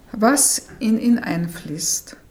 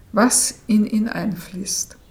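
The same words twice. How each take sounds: Both takes have the same delivery.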